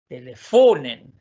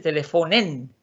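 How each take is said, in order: First: The stress stays on the syllable fon. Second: The stress is moved off the syllable fon. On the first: The speaker calls it right. "la acentuación sigue donde mismo" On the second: The speaker calls it wrong. "aquí no se dice telefonen"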